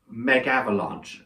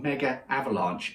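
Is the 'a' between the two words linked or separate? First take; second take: linked; separate. First: One 'a' sound joins the two words. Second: Two separate 'a' sounds join the two words. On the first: The speaker calls it right. "there's not a double A" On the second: The speaker calls it wrong. "it's not Mega Avalanche"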